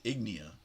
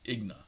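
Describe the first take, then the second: First: The E sound in the name is pronounced. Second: The E sound in the name is silent. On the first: "I think I said Ignia" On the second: "I think he said the E silent"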